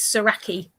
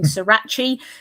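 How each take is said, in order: First: The name sounds like Saraki, not the sauce. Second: The name sounds like the hot sauce Sriracha. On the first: The speaker calls it right. "so it's it's Saraki" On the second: The speaker calls it wrong. "I hear a lot of people saying Sriracha. That's not it. That's a hot sauce"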